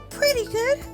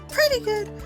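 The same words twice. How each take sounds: First: It is said in a slightly altered character voice. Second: It is said in a slightly altered character voice.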